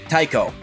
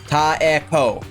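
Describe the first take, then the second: First: The name is said fast with vowels merged. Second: The name is said slowly with separate vowels.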